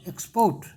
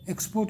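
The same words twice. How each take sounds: First: The stress is on the second syllable. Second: The stress is on the first syllable. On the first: It is used as a verb. "Accent बदल गया" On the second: It is used as a noun or adjective. "यहाँ यहाँ था शुरू में"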